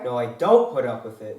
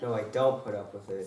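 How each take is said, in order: First: It is said loudly. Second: It is said at a normal, quieter volume.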